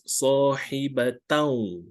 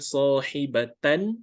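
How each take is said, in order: First: The final n merges into a following w sound. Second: The final n is pronounced clearly on its own. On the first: The speaker calls it right. "we have to combine with the waw, so it becomes" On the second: The speaker calls it wrong. "instead of saying sahibatan"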